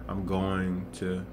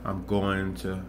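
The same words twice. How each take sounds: The two takes are said the same way.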